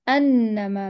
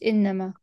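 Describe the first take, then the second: First: The word begins with an a vowel. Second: The word begins with an i vowel. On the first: The speaker calls it right. "الهمزة مفتوحة" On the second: The speaker calls it wrong. "مش إنما"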